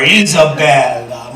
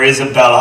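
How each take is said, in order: First: Isabella drawn out slowly and tenderly; doting. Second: Said in the usual way. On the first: Real, not acted. Grandfather adores his five-year-old granddaughter, doting drawn-out Isabella. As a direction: savor the name Isabella, stretching it out.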